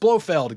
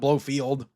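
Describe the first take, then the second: First: The name ends with a short 'feld' sound. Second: The name ends with a long 'field' sound. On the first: The speaker calls it right. "it's Blofeld" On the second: The speaker calls it wrong. "not Blowfield"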